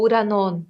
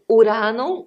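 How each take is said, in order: First: "uranon" stressed on the last syllable, NON; final stress. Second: "uranon" stressed on the middle RA, louder; penultimate stress. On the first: Teacher offering the other option, "uranon" stressed on NON. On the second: Teacher offering an accent option, "uranon" stressed on RA. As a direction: punch RA in "uranon". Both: Shown as a demonstration. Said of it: "Então, seria".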